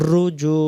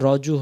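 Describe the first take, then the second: First: The first vowel sounds like a u. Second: The first vowel sounds like an o. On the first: The speaker calls it right. "আরবিতে রব পেশ" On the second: The speaker calls it wrong. "আমরা অনেকে রজু হয়ে যায়"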